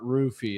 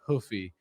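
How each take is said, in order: First: The name starts with an English R sound. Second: The name starts with a breathy H sound. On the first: The speaker calls it wrong. "his name is not Roofy" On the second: The speaker calls it right. "It's Hoofy"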